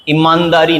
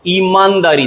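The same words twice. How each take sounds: First: ईमानदारी said as "i-maandaari"; short first i. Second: ईमानदारी said as "ee-maandaari"; long first ee. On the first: Teacher rejecting it, ईमानदारी with short first i. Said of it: "ईमानदारी नहीं". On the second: Teacher correcting, ईमानदारी with long first ee. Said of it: "ईमानदारी दिखाओ". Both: Shown as a demonstration.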